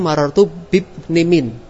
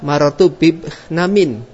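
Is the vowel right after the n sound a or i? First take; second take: i; a. First: The n is followed by an i vowel. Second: The n is followed by an a vowel. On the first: The last two letters both carry the case ending. "dengan i'rab yang pada dua huruf terakhir" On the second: Only the final letter carries the case ending. "Jadi bisa membaca"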